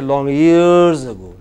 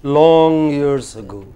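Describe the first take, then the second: First: "years" stretched and hit loud; wrongly weight "years" instead of "long"; slow phrase with "years" drawn out and falling; stress on years. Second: "Long" drawn out and prominent; "Long" held long, slow phrase; stress on Long. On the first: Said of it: "It does not say". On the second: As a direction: stretch the word "Long", then let "years ago" fall away. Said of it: "the long is prominent in that group". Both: Shown as a demonstration.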